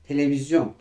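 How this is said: The word is said with French-style pronunciation. "Bakın Fransızca kullanıyoruz biz bunu. Televizyon diyoruz"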